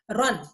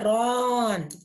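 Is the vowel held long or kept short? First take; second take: short; long. First: The vowel is kept short without stretching. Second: The vowel is stretched out long. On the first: The speaker calls it right. "Say run" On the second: The speaker calls it wrong. "Don't say run"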